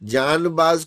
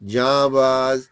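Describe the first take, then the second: First: The n is pronounced as a full consonant. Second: The n is dropped, leaving only a nasal vowel. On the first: The speaker calls it wrong. "जानबाज कोई नहीं कहता" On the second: The speaker calls it right. "जैसे यहां पढ़ते हुए हम नून को गायब करते हैं ना"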